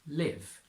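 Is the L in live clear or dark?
clear. The L is clear.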